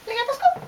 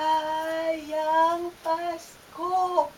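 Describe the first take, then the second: First: The greeting is rushed very fast. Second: The greeting is said slowly.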